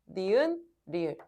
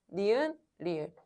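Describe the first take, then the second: No difference in how they are said.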